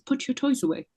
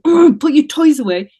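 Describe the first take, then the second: First: It is said in a calm tone. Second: It is said in an angry tone.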